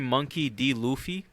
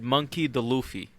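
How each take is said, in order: First: The middle part is said as the letter D. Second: The middle part is said as the word 'the'. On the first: The speaker calls it right. "instead of saying Monkey D. Luffy" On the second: The speaker calls it wrong. "he said Monkey the Luffy"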